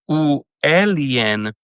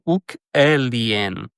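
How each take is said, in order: First: The first word ends in a plain vowel. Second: The first word ends in a k sound. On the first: The speaker calls it wrong. "em vez de você dizer" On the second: The speaker calls it right. "você vai dizer"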